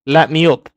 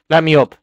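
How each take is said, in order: Both takes have the same delivery.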